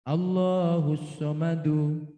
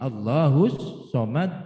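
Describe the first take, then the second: First: The last word ends with a full vowel ending. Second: The last word ends with a heavy bounced d.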